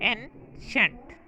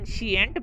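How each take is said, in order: First: It is said with two syllables, ain-shent. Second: It is said with three syllables, shee-ent. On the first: The speaker calls it right. "दुरुस्त pronunciation है एनशेंट" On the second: The speaker calls it wrong. "हम इस लफ्ज़ को अक्सर एनशियंट पढ़ते हैं जो कि गलत है"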